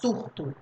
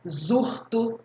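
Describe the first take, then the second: First: The word begins with a hissing s sound. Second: The word begins with a buzzing z sound. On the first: The speaker calls it right. "Vai ler com som de S" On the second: The speaker calls it wrong. "Ninguém vai ler assim"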